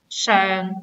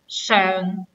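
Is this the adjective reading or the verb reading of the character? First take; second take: adjective; adjective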